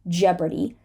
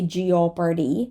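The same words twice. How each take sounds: First: The o in the first syllable is silent. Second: The o in the first syllable is pronounced. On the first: The speaker calls it right. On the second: The speaker calls it wrong.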